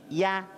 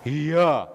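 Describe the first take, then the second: First: A thin ya with no vowel before it. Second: An extra i vowel comes before ya. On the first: The speaker calls it right. "tapi ya tipis" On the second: The speaker calls it wrong. "bukan iya"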